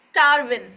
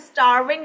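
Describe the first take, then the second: First: The word ends without the g sound. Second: The word ends with a full g sound.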